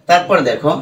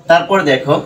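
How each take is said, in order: Both takes have the same delivery.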